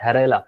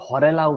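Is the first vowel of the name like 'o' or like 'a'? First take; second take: like 'a'; like 'o'. First: The first vowel sounds like 'a'. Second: The first vowel sounds like 'o'. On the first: The speaker calls it right. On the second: The speaker calls it wrong.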